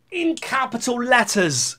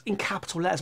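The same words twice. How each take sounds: First: High, slow announcement; mock capitals emphasis. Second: Quick drop to a soft voice; quiet aside. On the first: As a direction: stretch it out in a high voice. Announces the shouty capitals, then repeats quietly. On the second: Real, not acted. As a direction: toss it off softly. Same words repeated as quiet aside.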